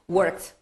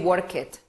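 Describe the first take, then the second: First: The ending is a single t sound. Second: The ending is said as an extra syllable. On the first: The speaker calls it right. "Worked, right?" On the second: The speaker calls it wrong. "We don't say worked"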